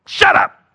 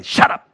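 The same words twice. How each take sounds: First: Louder, breathy second shut up; harsher shout. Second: A sharp, angry shut up; mad shout. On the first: Lies shouting truth down, louder and rasping. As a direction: push it harder, forced out on air. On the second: Lies snapping back at the truth, angry. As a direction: bark it out like an offended liar. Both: Retold or imitated. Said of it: "Lies always get mad and say".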